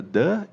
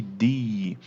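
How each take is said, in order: First: "The" said short as "thuh", schwa vowel; "The" rhymes with "duh". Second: "the" said long as "thee", ee vowel; "the" rhymes with "see". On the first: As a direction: say "The" with a short uh sound. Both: Shown as a demonstration. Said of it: "Olha só que diferença".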